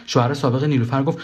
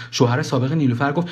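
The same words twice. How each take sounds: The two takes are said the same way.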